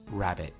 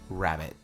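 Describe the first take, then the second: Both takes have the same delivery.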